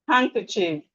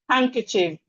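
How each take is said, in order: The two takes are said the same way.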